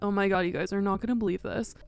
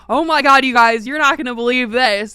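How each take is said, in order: First: It is said in a flat, depressed tone. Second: It is said in an enthusiastic, lively tone.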